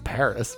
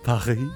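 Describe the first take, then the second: First: Paris is said in an American accent. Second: Paris is said in a French accent.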